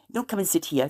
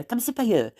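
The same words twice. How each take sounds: First: Said in the usual way. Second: Raised, lilting South Wales phrasing on "by here"; South Wales Welsh-English lilt; Wenglish phrase. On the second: Shown as a demonstration. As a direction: lift "come sit by here" like a Valleys local. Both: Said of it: "but we say".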